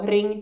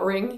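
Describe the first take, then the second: First: The R is a rolled, ringing Swedish R. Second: The R is an American-style English R.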